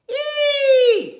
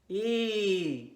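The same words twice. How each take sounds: First: It is spoken at a high pitch. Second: It is spoken at a low pitch. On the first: "How about in your high voice?" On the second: "How about in your low voice?"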